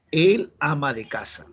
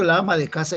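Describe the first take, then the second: First: "El" held long, then "ama de casa"; corrective stress on EL. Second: Said in the usual way. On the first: Shown as a demonstration. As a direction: give the correct article "El" clear emphasis. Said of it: "Entonces, ¿cómo se dice?". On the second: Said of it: "eso está mal".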